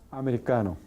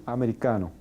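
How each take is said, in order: Both takes have the same delivery.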